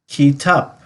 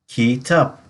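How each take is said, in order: No difference in how they are said.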